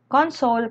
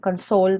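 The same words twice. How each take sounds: First: The stress is on the first syllable. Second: The stress is on the second syllable. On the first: It names a thing. "Console kapag uh, noun or bagay" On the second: It names an action. "console pag action word"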